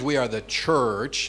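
A Canadian accent with a hard R. "Canadians, We have this hard R"

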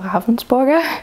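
The name is pronounced the German way. "for the Germans"

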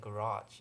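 It is said with an American pronunciation. "we leave our cars in the garage"

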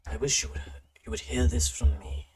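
It is read in a put-on character voice.

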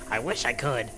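It is said in a put-on character voice.

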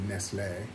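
The name is said the Spanish way. This is how people in Spain say it. "they say Nestlé, because that's how you pronounce things here"

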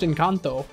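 It is said with a Spanish-style accent. "the way you said it had a little bit of a Spanish twang to it"

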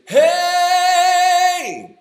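The voice is firm with little air escaping. The speaker calls it right. "that's a form of compression, that's a good one"

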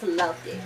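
It is said with light, mild emphasis. The feeling is enjoyment, not deep love. "lowercase letters"

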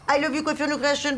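The greeting sounds harsh and aggressive. "c'est agressif"

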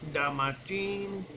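It is said in a put-on foreign accent.

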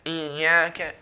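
The long vowel is held with nasal sound. The speaker calls it wrong. "then I'm producing a nasalization sound when I'm stretching it"

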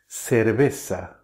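The c is said as an s sound. This is how it is said in southern Spain and Latin America. "it can be pronounced with S instead of C"

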